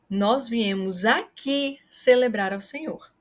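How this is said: The word aqui is stressed. It highlights the place. "Se você quer chamar a atenção para o local"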